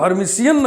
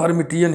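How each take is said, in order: First: The middle consonant is pronounced as 'sh'. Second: The middle consonant is pronounced as 't'. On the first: The speaker calls it wrong. "हम हर्मिट को हर्मिशियन नहीं पढ़ेंगे" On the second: The speaker calls it right. "हम हर्मिट को हर्मिटियन ही पढ़ेंगे"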